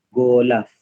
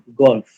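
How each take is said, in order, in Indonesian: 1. Vokal tambahan disisipkan di antara l dan f. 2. L dan f disambung tanpa vokal. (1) "kalaulah kita sambung macam ejaan pada alif ni, dia akan jadi gulaf" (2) "kita jarakkan. Dia akan jadi golf"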